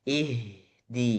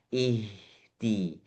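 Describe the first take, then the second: No difference in how they are said.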